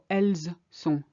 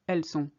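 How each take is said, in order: First: The final S of elles is pronounced. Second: The final S of elles is silent. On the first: The speaker calls it wrong. "I didn't say ils sont or elles sont" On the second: The speaker calls it right. "No, it's ils sont, elles sont"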